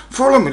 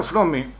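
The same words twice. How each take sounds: First: "Φλόμι" stretched with an extra vowel, higher; officer's mispronunciation. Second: Said in the usual way. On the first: Acted. Officer puzzling over the immigrant's word, mispronounced. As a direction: say "Φλόμι" as "fo-lo-mi", pitched up. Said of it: "λέει". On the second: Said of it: "Λέω".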